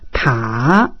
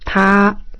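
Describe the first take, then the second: First: The pitch dips down then rises slightly. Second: The pitch stays high and level. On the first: "O terceiro desce e sobe um pouquinho" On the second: "O primeiro é estável"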